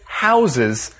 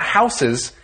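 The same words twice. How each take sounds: First: The first s sounds like a z. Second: The first s sounds like a plain s. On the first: It is the verb meaning to hold or shelter. The speaker calls it right. "that S will turn into a Z sound" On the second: It is the noun for buildings people live in. The speaker calls it wrong. "So it's not houses"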